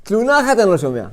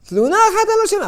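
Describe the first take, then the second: First: Said in the usual way. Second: Much higher and faster, exclaimed; high emphatic repeat. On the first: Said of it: "repeated louder". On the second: Acted. Preacher marveling that the dead never complain, high exclaimed. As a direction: fling it up high in amazement.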